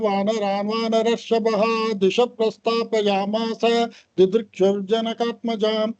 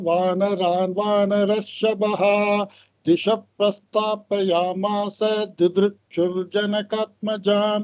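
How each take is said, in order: First: The verse is recited very fast and hurriedly. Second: The verse is recited at a moderately faster pace. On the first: "இப்படி வேகமா அவசர அவசரமா சொல்ற மாதிரியும் சொல்லக்கூடாது" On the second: "இப்படி கொஞ்சம் ஸ்பீடை கூட்டி நம்ம சொல்லலாம்"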